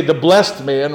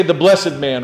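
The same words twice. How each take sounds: First: "blessed" said as one syllable, "blest". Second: "blessed" said in two syllables, "BLESS-ed". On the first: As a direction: say "blessed" to rhyme with "rest". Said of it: "you kinda wanna say". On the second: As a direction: sound the -ed in "blessed" separately. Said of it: "saying the blessed man is the better way". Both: Shown as a demonstration.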